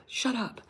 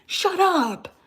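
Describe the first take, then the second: First: Breathy hushed shut up; soft whisper before the blow-up. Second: Exasperated yell at a liberal sister; mock shout. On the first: Retold or imitated. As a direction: mutter it almost silently. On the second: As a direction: explode into a sudden shout. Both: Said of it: "I'm like".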